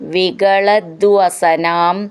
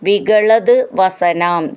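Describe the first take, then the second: First: The two words are joined into one word. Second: The two words are said separately.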